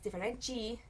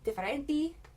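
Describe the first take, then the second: First: The d and t sound like j and ch. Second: The d and t sounds are plain. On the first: This is the southern Brazilian way. "down there" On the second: This is the northern Brazilian way. "up here"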